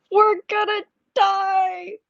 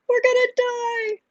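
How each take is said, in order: First: High, slow, drawn-out mock panic; kid yelling in panic. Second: Much higher, slow, wailing imitation of a scared kid; mock child panic. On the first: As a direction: imitate a small child sure he'll die on the ride. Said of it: "just starts yelling out". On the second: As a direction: echo the child's panicked wail. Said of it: "yelling out".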